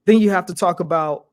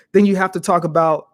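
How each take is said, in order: Both takes have the same delivery.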